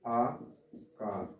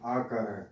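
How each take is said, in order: First: आकार stretched very slow and soft; drawn out. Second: Said in the usual way. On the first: Shown as a demonstration. Teacher stretching the vowel name for students. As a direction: draw out आकार slowly. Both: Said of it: "इसकी जो मात्रा है वो क्या है".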